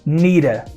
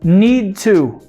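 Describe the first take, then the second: First: The words blend into one reduced form. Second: Both words are said fully and separately.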